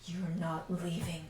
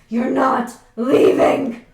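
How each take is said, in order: First: It is said at the quietest volume. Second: It is said at the loudest volume.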